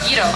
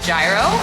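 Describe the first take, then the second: First: It is said with the local Greek pronunciation. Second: It is said with an American pronunciation. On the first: The speaker calls it right. "but it's pronounced gyro" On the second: The speaker calls it wrong. "as an American, I used to pronounce it as gyro"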